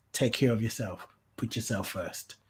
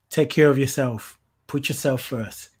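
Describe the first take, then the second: First: Much softer, fading echo of the advice; soft repeat. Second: Emphatic urging. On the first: Host repeating advice to viewers, softly. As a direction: let it settle gently. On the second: Host urging viewers to put themselves first, emphatic. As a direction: drive the point home. Repeated advice, first take. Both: Real, not acted.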